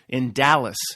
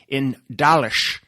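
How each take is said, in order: First: Dallas is said in an ordinary, plain way. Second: Dallas is said with an imitated, odd pronunciation.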